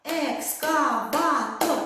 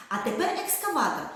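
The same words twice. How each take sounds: First: Ек-ска-ва-тор, slow, each syllable split apart for a clap; Екскаватор broken into four clear claps; clapped syllable by syllable. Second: Said in the usual way. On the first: Shown as a demonstration. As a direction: spell out Екскаватор slowly in four beats. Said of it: "Чотири оплески". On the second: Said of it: "Чи можна проплескати слова?".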